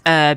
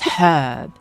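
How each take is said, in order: First: The word begins without an H sound. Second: The word begins with a clear H sound. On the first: The speaker calls it wrong. "none of this herb shit" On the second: The speaker calls it right. "the H in Latin is always sounded"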